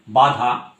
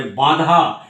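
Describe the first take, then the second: First: Said in the usual way. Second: বাধা with the first vowel nasal, like বাঁধা; nasalised word. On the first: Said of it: "একটা total শব্দের কথা বলি". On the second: Shown as a demonstration. Teacher showing how nasality changes the meaning. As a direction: push air through the nose on বাধা. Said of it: "নাক দিয়ে বের করে বাধা".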